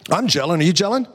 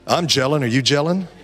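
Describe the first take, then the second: First: It is said a little quicker. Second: It is said at a normal pace.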